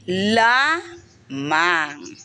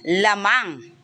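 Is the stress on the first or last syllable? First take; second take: first; last. First: The stress is on the first syllable. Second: The stress is on the last syllable. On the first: It means unique. "Ang diin natin ay nasa unang pantig" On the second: It means ahead or leading. "Ang diin ay nasa hulihan"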